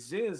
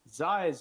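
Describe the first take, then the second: First: The name is said in a relaxed, laid-back way. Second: The name is said in a harsh, aggressive way. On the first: The speaker calls it right. "it's way more laid back" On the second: The speaker calls it wrong. "it's a little too aggressive"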